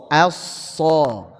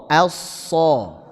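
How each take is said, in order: Both takes have the same delivery.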